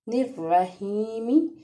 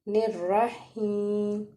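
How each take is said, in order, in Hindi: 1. शब्द का अंत छोटे स्वर से होता है। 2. शब्द का अंत व्यंजन से होता है।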